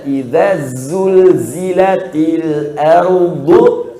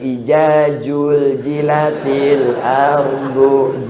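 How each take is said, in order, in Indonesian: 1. Konsonannya dibaca seperti bunyi z. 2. Konsonannya dibaca seperti bunyi j.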